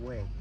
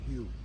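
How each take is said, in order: First: The name sounds like the English word 'way'. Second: The name sounds like the English word 'hugh'. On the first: The speaker calls it right. "they call it way" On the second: The speaker calls it wrong. "They don't say it Hugh"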